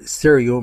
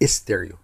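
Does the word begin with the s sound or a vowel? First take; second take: s sound; vowel. First: It begins directly with the s sound. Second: It begins with an added i vowel. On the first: The speaker calls it right. "احنا بنقول ستيريو" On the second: The speaker calls it wrong. "مش استيريو ... وده خطأ"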